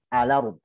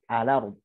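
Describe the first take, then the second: Both takes have the same delivery.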